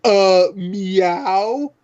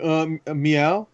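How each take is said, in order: First: A slightly higher, hesitant meow with a rising end; lightly imitating the original line read; first trailer meow. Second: A softer, hesitant meow that trails up; a quieter, unsure mock meow; second take meow. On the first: Joking about the trailer meow, giving a mild, hesitant rising meow. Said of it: "it's like". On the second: Mocking the weaker new take with a soft, hesitant meow. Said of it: "this one was more like".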